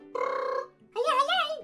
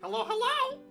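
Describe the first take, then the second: First: The greeting is loud and strongly exaggerated. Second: The greeting is softer and less exaggerated. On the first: "Here we go with this voice again" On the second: "I'm toning down my voice just so you can hear me"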